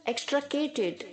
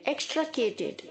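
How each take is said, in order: Both takes have the same delivery.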